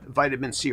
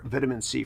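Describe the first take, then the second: First: Vitamin is said the American way. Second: Vitamin is said the British way.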